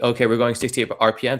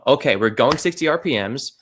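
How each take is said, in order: First: It is said flatly, with little energy. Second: It is said with lively energy and conviction. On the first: It just states the numbers. The speaker calls it wrong. "It's no" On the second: It tells a story that draws people in. The speaker calls it right. "You're telling a story. You have to make it captivating"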